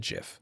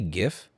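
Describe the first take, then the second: First: The word starts with a J sound. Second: The word starts with a hard G sound. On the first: The speaker calls it right. "It's like a giraffe" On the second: The speaker calls it wrong. "Don't say GIF"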